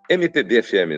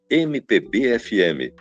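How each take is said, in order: First: The letters are said smoothly, run together. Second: The letters are said separately, syllable by syllable. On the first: The speaker calls it wrong. "Você não fala" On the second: The speaker calls it right. "Ela é silabada, ela tem uma cadência silabada"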